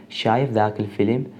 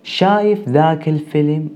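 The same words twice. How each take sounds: First: شايف ذاك الفيلم softer, with a rising question tune; dialect demo repeat. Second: شايف ذاك الفيلم with شايف stressed, a touch higher; dialect demo. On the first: (تکرار آرام «شايف ذاك الفيلم» با لحن پرسشی بالارونده) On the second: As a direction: say شايف ذاك الفيلم in Iraqi Arabic, slightly raised. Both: Shown as a demonstration. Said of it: "اون فیلم رو دیدی".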